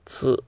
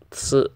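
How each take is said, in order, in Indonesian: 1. Suku kata itu diawali dengan bunyi ts. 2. Suku kata itu diawali dengan bunyi ts.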